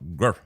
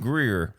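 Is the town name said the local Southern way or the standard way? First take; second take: local; standard. First: The name is said in a local Southern pronunciation. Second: The name is said in a standard pronunciation. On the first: "if you're from Greer, there's a good chance you call it" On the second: "It's G R E E R"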